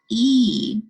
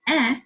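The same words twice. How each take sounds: First: The vowel is said like its name. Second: The vowel has its short sound. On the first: "you would sound it out as e. Hear how it's saying its name?" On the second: "a short vowel sounding out e as e"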